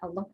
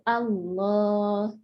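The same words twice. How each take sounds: First: The vowel after the L is kept short. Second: The vowel after the L is held long. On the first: This is how it is said in conversation. "Allahnya pendek" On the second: This is how it is read in scripture. "lam yang kedua itu selalu dibaca panjang"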